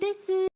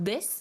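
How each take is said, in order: First: The final u vowel is clearly pronounced. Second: The final u vowel is dropped, ending on s. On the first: The speaker is putting on a cute, affected style. "pour se donner un peu un genre, genre ah oui desu" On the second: This is the standard everyday pronunciation. "faire comme s'il y avait deux S à la place"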